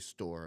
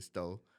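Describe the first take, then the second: First: The final r is clearly pronounced. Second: The final r is dropped, Chicago style.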